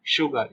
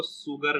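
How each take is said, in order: First: शुगर starting with a "sh" sound; correct SH in शुगर. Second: शुगर starting with plain "s" instead of "sh"; wrong S in शुगर. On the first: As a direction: say शुगर as "SHOO-gar". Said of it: "इसको पढ़ते हैं शुगर". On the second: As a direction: say शुगर as "SOO-gar". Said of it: "इसको शुगर नहीं पढ़ते हैं". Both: Shown as a demonstration.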